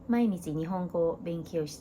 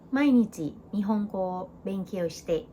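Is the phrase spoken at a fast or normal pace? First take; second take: fast; normal. First: The phrase is spoken at a fast pace. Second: The phrase is spoken at a normal pace. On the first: "หรือถ้าพูดเร็วๆก็" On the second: "ถ้าเกิดว่าจะพูดเป็นภาษาพูดจะพูดว่า"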